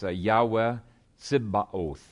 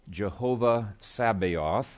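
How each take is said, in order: First: The name begins with a Y sound. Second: The name begins with an English J sound.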